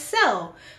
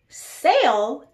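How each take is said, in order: First: The vowel is a short 'eh' sound. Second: The vowel is a long 'ay' sound. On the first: "I pronounce as sell" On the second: "the word sale"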